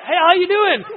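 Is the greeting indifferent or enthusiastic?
enthusiastic. The greeting sounds eager and enthusiastic.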